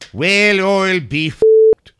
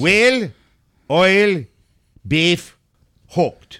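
First: The phrase is said at a quick pace. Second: The phrase is said at a slow pace.

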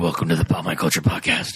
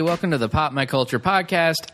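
First: It is said in a Batman voice. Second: It is said in his own voice.

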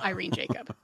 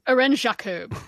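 First: The name is pronounced the English way. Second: The name is pronounced the French way. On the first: The speaker calls it wrong. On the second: The speaker calls it right. "it's Irene. She's French"

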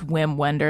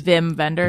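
First: The first name begins with a W sound. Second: The first name begins with a V sound. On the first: "Even though it's" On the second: "that's how you say it, right?"

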